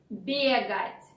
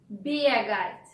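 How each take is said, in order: Both takes have the same delivery.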